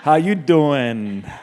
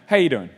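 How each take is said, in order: First: It imitates Joey Tribbiani's way of asking. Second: It sounds like a casual passing hello.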